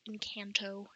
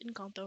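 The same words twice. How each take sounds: First: The word is said with an English pronunciation. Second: The word is said with a Spanish pronunciation. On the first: The speaker calls it wrong. "like so many people call it" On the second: The speaker calls it right. "It's Encanto, or something along those lines"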